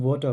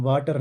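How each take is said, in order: First: वाटर with a rounded o and no final r, "wo-ta"; corrected pronunciation. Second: वाटर with a flat a and a rolled r, "vaa-tar"; old wrong pronunciation. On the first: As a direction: round the vowel in वाटर and drop the r, "wota". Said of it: "अब हम वाटर पढ़ेंगे". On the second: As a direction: say वाटर the way it was taught in childhood, "vaatar". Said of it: "अब हम वाटर नहीं पढ़ेंगे". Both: Shown as a demonstration.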